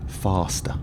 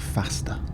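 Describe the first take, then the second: First: It is said in a Southern English accent. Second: It is said in a Northern English accent. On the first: "definitely Southern English. She said, or he said, faster" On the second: "You'll probably notice I say faster. North English"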